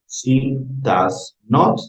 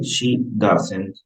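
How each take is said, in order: First: Does and not are two separate words. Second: Does and not are joined into doesn't.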